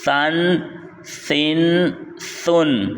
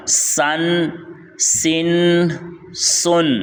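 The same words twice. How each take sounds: First: سن with a lisped "th" as in "thin"; slow separate syllables with soft ث; soft, no whistle. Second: Sharp hissed s in سن; slow separate syllables with a whistling س. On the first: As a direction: say سن softly articulated, tongue between the teeth. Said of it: "اس میں سیٹی کی آواز نہیں آئی". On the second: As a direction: say سن with a thin "sss" through the teeth. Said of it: "اس میں سیٹی کی آواز آئے گی، اس طرح". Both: Shown as a demonstration.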